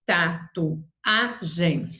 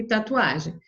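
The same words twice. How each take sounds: First: TATUAGEM very slowly split as ta, tu, a, gem; syllable by syllable. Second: Said in the usual way. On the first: Shown as a demonstration. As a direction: pause after each syllable of tatuagem. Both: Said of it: "Você vai separar lá".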